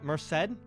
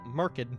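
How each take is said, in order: First: The second syllable starts with an s sound. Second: The second syllable starts with a k sound.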